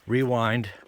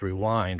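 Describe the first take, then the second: First: The stress is on the first syllable. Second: The stress is on the second syllable. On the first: It is said that way as a joke. "I always say it rewind, hotel, umbrella, just kind of as a joke" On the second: It is the usual way to say it. "Really, it's rewind, right?"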